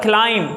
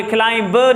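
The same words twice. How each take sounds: First: "क्लाइम" with no b at the end; correct pronunciation. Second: "क्लाइम ब" as klime-buh; wrong pronunciation. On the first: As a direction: say "क्लाइम" as klime. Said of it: "ये क्लाइम ब नहीं होता". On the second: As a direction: say "क्लाइम ब" with the b sounded. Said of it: "नहीं होता". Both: Shown as a demonstration.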